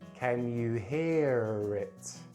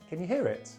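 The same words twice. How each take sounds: First: The phrase is said very slowly. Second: The phrase is said at normal speed. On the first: "Then I'm going to say it very slowly" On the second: "say it for the third time at normal speed"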